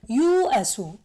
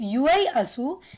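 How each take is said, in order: First: No y glide is heard inside the word. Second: A y glide is heard inside the word. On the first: The speaker calls it right. "They make it u asu" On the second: The speaker calls it wrong. "Instead of saying Ui asu"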